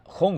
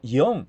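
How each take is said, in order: First: The word begins with a throaty J sound. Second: The word begins with a Y sound. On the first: The speaker calls it wrong. "no pronuncia Jon" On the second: The speaker calls it right. "sino Yon, es una I"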